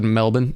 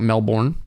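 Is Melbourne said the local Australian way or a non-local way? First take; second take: Australian; non-local. First: It is said the local Australian way. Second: It is said a non-local, outsider way. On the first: The speaker calls it right. "Notice how I said Melbourne" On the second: The speaker calls it wrong. "and not Melbourne"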